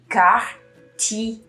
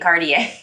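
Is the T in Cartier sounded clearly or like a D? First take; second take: clear T; like D. First: The T is pronounced clearly, in three syllables. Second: The T is softened to sound like a D. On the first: The speaker calls it right. "you really pronounce it" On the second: The speaker calls it wrong. "T's sometimes are pronounced like a D"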